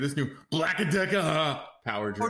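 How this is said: It is said in a deep, Austrian-accented put-on voice. "We could have it be Arnold Schwarzenegger"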